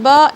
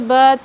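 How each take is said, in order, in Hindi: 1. स्वर को लगभग दो हरकत जितना खींचा जाता है। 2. स्वर छोटा और कटा हुआ होता है। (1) "दो सेकंड खींच कर पढ़ना है। बा इस तरीके से" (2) "ब त स इस तरीके से नहीं पढ़ना है"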